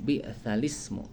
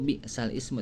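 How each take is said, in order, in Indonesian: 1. Kata-kata itu menyambung tanpa hamzah. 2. Hamzah sebelum ismu dibaca terpisah. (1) "dibacanya di bi'salismu" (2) "Tulisannya itu bi'sal ismu"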